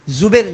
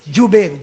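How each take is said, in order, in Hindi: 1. नाम की शुरुआत z की आवाज़ से होती है। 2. नाम की शुरुआत j की आवाज़ से होती है। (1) "जुबैर नहीं, जा से नहीं" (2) "जीम से"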